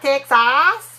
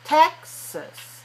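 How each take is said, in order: First: The second syllable has a full, clear vowel. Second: The second syllable has a weak, relaxed vowel. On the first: The speaker calls it wrong. "not ah, not Texas, not in English" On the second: The speaker calls it right. "Very relaxed"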